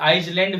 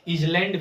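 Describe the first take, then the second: First: The word begins 'eye' with an 's' sound. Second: The word begins with a short 'iz' sound. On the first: "इसे आइसलैंड भी नहीं पढ़ेंगे" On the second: "इसे कुछ लोग इजलैंड भी पढ़ते हैं, जो बिल्कुल गलत है"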